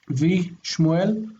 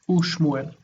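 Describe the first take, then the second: First: The prefix is said as a 'v' sound. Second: The prefix is said as an 'oo' vowel. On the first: The speaker calls it wrong. "we would expect the two to reduce to V" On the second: The speaker calls it right. "In this case, it turns into U"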